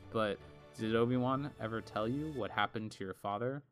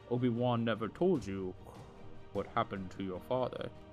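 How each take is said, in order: First: It is said in his normal voice. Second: It is said in a Darth Vader voice.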